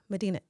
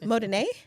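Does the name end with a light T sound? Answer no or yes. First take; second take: yes; no. First: The name ends with a light tapped T. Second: The name ends without a T sound. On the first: The speaker calls it right. "There's a, like a little T at the end" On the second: The speaker calls it wrong.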